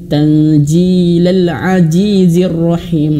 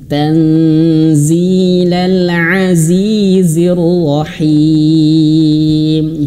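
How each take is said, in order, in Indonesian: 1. Konsonan itu dilafalkan sebagai bunyi j. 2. Konsonan itu dilafalkan sebagai bunyi z yang berdengung. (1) "baca huruf zai ini seperti jim ya, bukan" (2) "giginya dirapatkan z ... ada getaran suaranya"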